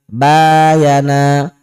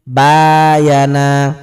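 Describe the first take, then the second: No difference in how they are said.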